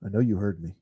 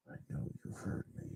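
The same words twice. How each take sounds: First: Said in the usual way. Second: Fast, hushed menacing whisper. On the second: Pretend. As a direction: breathe it like a creepy threat. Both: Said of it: "I'm just kidding".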